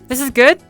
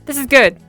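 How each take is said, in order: First: The pitch rises at the end. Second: The pitch falls at the end.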